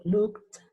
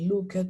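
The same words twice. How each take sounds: First: "looked" in one syllable, lukt. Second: "looked" in two syllables, loo-ket; wrong pronunciation. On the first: Teacher modelling the correct form, T ending. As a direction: end "looked" on kt, no vowel. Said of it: "Todos con una T al final". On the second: Teacher recalling the mistake, mispronounced. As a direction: sound the e in "looked". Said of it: "ya no digo". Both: Shown as a demonstration.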